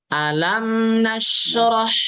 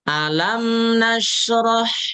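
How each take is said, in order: Both takes have the same delivery.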